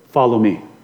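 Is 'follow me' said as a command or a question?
command. It is said as a firm command, falling. The listeners are ordered to follow. The speaker calls it right. "he commanded them"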